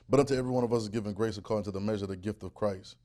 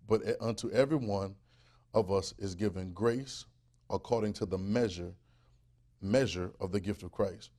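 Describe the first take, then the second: First: It is read at a normal pace. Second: It is read more slowly.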